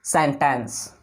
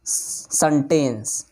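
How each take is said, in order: First: सेंटेंस said as sentence, falling; सेंटेंस corrected; correct pronunciation. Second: सेंटेंस with a flat wrong vowel, slow; mock the wrong सेंटेंस; सेंटेंस as students wrongly say it; wrong pronunciation. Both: Shown as a demonstration. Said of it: "बिल्कुल wrong".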